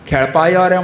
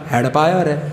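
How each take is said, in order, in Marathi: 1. तो 'kh' आवाजाने सुरू होतो आणि त्यात मूर्धन्य 'ळ' आहे. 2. तो 'h' आवाजाने सुरू होतो आणि 'ळ' ऐवजी 'ड' आहे.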